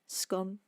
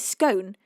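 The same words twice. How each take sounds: First: The word rhymes with 'gone'. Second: The word does not rhyme with 'gone'. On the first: "because it's already gone" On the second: "were I to say scone, I couldn't say that joke"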